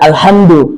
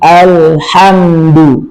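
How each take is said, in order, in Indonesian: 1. Bunyi l-nya cepat dan dipotong pendek. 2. Bunyi l-nya mengalir dan ditahan sebentar. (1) "jangan cepat, jangan alhamdu" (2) "tapi alhamdu"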